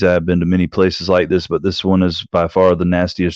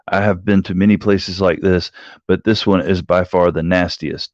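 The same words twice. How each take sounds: First: It is run together without any pauses. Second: It is read with normal pauses between phrases.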